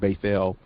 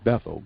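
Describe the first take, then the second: First: The name is said with its Hebrew pronunciation. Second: The name is said with its English pronunciation. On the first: The speaker calls it right. "you will continue to hear us use the word Bethel" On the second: The speaker calls it wrong. "and not Bethel, because we know that Bethel is an English word"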